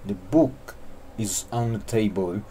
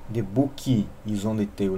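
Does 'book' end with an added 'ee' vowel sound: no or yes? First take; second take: no; yes. First: 'Book' ends cleanly on the k sound. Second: An extra 'ee' vowel is added after 'book'. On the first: The speaker calls it right. "A palavra book não leva i no final" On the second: The speaker calls it wrong. "não"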